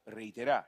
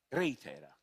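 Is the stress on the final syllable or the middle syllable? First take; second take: final syllable; middle syllable. First: The stress falls on the final syllable. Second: The stress falls on the middle syllable. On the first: It means the action will happen in the future. "cioè futuro" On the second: It is the name given to the vaccine. "con l'accento sulla era"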